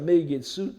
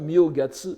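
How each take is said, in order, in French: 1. Le mot commence par la syllabe « mei ». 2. Le mot commence par la syllabe « myo ». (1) "à la laïque" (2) "à la bouddhique"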